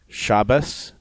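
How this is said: The last consonant is an s sound.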